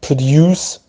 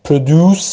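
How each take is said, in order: First: British produce, ending in "yoos"; British pronunciation. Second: American produce, ending in "oos"; American pronunciation. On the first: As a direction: say produce as "pruh-DYOOS". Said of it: "بریتیش". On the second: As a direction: say produce as "pruh-DOOS". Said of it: "امریکن". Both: Shown as a demonstration.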